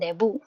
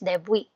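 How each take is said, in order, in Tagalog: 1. Sa Tagalog na paraan ito binibigkas, nagtatapos sa bu. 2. Sa Korean na paraan ito binibigkas, nagtatapos sa wi. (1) "yung Tagalog pronunciation natin" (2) "ang Korean pronunciation niya is debwi"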